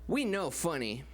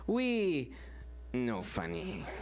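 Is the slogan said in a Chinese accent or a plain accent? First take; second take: plain accent; Chinese accent. First: It is said in the speaker's ordinary accent. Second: It is said in an imitated Chinese accent. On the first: The network claims to be an expert on comedy. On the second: The network admits it is not funny.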